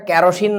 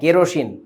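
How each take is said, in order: First: The first syllable is said with an open 'kya' sound. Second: The first syllable is said with a closer 'keh' sound. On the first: The speaker calls it wrong. "উচ্চারণটা কেরোসিন না" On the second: The speaker calls it right. "কে কে কে বলো কে"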